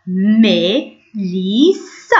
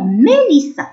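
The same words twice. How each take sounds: First: ميليسا very slowly, in three separated syllables. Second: Said in the usual way. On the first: Shown as a demonstration. Teacher showing pupils how to pronounce a name, syllable by syllable. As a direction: split ميليسا into long, careful pieces. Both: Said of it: "إذا ننطقوه ميليسا".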